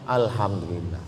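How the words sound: It sounds open and relieved, said sincerely.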